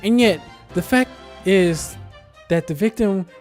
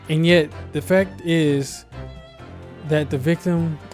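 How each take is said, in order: First: It is spoken in a put-on character voice. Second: It is spoken in a natural everyday voice. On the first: "I forgot that I was voice acting" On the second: "I was using my normal voice"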